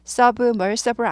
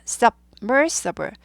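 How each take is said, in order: First: Submersible said run together as "sbumasabur", no break after sub; wrong version. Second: Submersible with a sharp stop after sub, then "masabl"; staccato after sub. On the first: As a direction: blur the b into the m in submersible. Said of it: "submersible 아니에요". (submersible을 끊지 않고 뭉개서 발음하는 틀린 예) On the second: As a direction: chop submersible after sub, crisp and slow. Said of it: "스타카토 있습니다". (submersible을 sub에서 딱 끊어서 천천히) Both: Shown as a demonstration.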